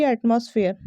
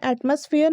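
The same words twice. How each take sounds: First: एटमॉस्फेयर with a full "moss" vowel; wrong pronunciation. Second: एटमॉस्फेयर with a reduced middle "muss"; correct pronunciation. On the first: Teacher telling students what to avoid, wrong pronunciation. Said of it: "ना कि". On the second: Teacher telling students what to say, correct pronunciation. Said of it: "इसे क्या कहना है". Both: Shown as a demonstration.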